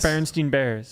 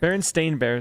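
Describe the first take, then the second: First: The last syllable of the name sounds like 'steen'. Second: The last syllable of the name sounds like 'stain'. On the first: The speaker calls it right. "Steen sounds so much better" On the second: The speaker calls it wrong. "sounds dumb"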